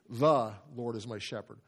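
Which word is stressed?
The. The stress falls on "The".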